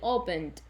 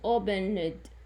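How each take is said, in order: First: The ending is a plain 'd' sound. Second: The ending is an extra 'id' syllable. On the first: The speaker calls it right. "they are pronounced D, so it's only opened" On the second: The speaker calls it wrong. "It's very wrong to pronounce it opened"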